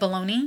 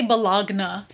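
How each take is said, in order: First: The word is pronounced ending with a 'nee' sound. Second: The word is pronounced as spelled, ending 'nya'. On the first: This is the usual spoken pronunciation. The speaker calls it right. "Instead of baloney" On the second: This is a reading pronunciation taken from the spelling. The speaker calls it wrong. "I used to say Bologna"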